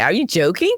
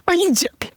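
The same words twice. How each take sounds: First: Said in the usual way. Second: High, stunned "Are you joking?" with disbelief; shocked disbelief. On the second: Retold or imitated. To the officer accusing her, high shocked disbelief. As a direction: squeak it out in total disbelief.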